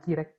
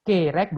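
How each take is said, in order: First: The first vowel sounds like 'i'. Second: The first vowel sounds like 'e'. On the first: The speaker calls it wrong. "bukan kirek" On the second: The speaker calls it right. "Kerek bukan kirek"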